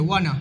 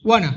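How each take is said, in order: First: It is blended into one short word. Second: The same.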